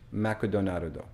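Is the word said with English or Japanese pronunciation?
Japanese. It is said with Japanese sounds and added vowels.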